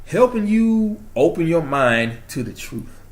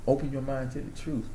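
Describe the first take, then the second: First: Slow, higher, heartfelt proclamation; emphatic declaration. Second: Softly repeated slogan; trying out a quote. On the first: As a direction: draw it out like a mission statement. Proud declaration, then repeats as quote. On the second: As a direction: say it quietly, savoring the phrase. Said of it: "That sounds like a quote". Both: Real, not acted.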